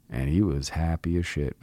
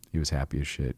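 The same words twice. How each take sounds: First: Said in the usual way. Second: He was happy as shit said a bit quieter, weight on happy; repeated for emphasis. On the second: Real, not acted. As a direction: repeat it softly to drive it home.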